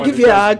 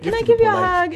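First: The request sounds heavy, insistent and pushy. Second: The request sounds light, sweet and cute.

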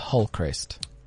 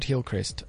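First: The first vowel is reduced to a murky 'u' sound. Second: The first vowel is a clear 'i' sound. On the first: The speaker calls it right. "There are no vowels in KwaZulu-Natal" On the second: The speaker calls it wrong. "It's not Hillcrest"

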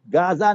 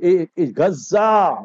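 First: Gaza is pronounced the English way. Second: Gaza is pronounced the Arabic way. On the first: This is the name outsiders use. The speaker calls it wrong. "non-Muslims say" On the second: This is the name the speaker's community uses. The speaker calls it right. "Use Islamic terminology"

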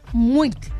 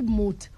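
First: The word has a glide, sounding like 'mweet'. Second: The word is a short single syllable, 'mut'. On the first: The speaker calls it right. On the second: The speaker calls it wrong. "Not Mut"

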